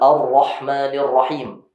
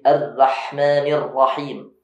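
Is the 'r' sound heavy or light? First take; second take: heavy; light. First: The 'r' sound is heavy and thickened. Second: The 'r' sound is light, not very thick. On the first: The speaker calls it right. "yang harusnya tebal" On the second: The speaker calls it wrong. "tidak terlalu tebal"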